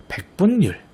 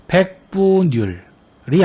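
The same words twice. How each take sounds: First: 백분율 said as [백뿐뉼], with a doubled n; correct reading with n-insertion. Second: 백분율 drawn out slowly as [백-뿌-뉼]; wrong reading without n-insertion. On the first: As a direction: close 분 on n and begin 뉼 with another n. (백분율을 ㄴ을 첨가해 [백뿐뉼]로 발음) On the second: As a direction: stretch 백분율 with one linked n, [백뿌뉼]. (백분율을 ㄴ 첨가 없이 길게 [백뿌뉼]로 발음) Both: Shown as a demonstration. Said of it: "아닌 백분율".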